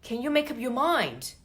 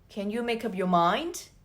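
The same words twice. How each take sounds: First: The tone is stern and annoyed. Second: The tone is mild and patient. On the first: A decision must be made now or else. "The second one, you better make a decision or else" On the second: There is still time to think. "The first one, you might still have time to think"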